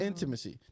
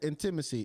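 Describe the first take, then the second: First: The stress is on the first syllable. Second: The stress is on the second syllable. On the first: The speaker calls it right. "The emphasis is on the N" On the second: The speaker calls it wrong. "I would put on on the T"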